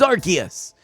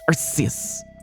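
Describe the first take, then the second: First: The C is said like a hard K. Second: The C is said like a hissing S. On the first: The speaker calls it right. "Because Arceus sounds cool" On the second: The speaker calls it wrong. "there's too much sibilance"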